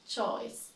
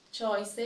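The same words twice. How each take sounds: First: "choice" as one syllable, choyss; "choice" with silent final e; correct pronunciation. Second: "Choice" as CHOY-seh; "Choice" read as spelt, extra syllable; mispronounced. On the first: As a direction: say "choice" ending on s. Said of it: "then I'll say it correctly". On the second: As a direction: say "Choice" with a sounded final e. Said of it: "I will say each one incorrectly". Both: Shown as a demonstration.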